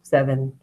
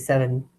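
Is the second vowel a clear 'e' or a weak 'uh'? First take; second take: weak uh; weak uh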